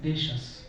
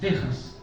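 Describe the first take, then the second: First: The middle consonant is a soft 'sh' sound. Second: The middle consonant is a harsh throaty 'h' sound. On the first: This is the older medieval pronunciation. "el fonema sh, o este sonido sh, como eh, en la palabra de eh, dejas" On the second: This is the modern pronunciation. "ahora en el español eh, actual, es dejas"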